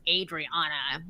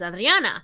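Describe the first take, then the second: First: The name is said with an English pronunciation. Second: The name is said with a Spanish pronunciation. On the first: "When you say it in in, in English, it's Adriana" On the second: "it doesn't sound anything like that when you say it in English"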